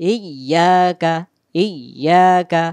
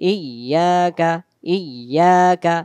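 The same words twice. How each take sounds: Both takes have the same delivery.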